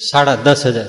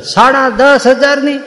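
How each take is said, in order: First: Said in the usual way. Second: High and slow, dragging out સાડા દસ હજારની; aghast echo. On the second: Retold or imitated. Husband repeating the sari price high and slow in dismay.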